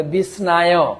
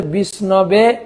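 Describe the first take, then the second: First: বিষ্ণায় said "bis-naa-yo"; long aa in বিষ্ণায়, ending "yo"; incorrect pronunciation. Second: বিষ্ণবে said "bish-no-be"; short middle vowel in বিষ্ণবে, ending "be"; correct pronunciation. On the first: Teacher shows the unlearned form, বিষ্ণায় as "bisnaayo". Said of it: "সঠিক উচ্চারণ করতে পারে না". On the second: Teacher shows the learned form, বিষ্ণবে as "bisnobe". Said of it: "যারা সঠিক উচ্চারণ". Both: Shown as a demonstration.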